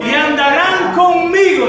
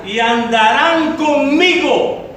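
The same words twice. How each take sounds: First: "conmigo" punched higher and louder; loud emphasis. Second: "andarán" stretched out slowly; slow emphasis. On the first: Pastor repeating the Lord's promise to the church, louder on "conmigo". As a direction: proclaim "conmigo" with force. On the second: Pastor reading the promise of Revelation to the church, slowly stressing "andarán". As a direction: draw out "andarán" word by word. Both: Shown as a demonstration. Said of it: "Y eso lo dice el Señor".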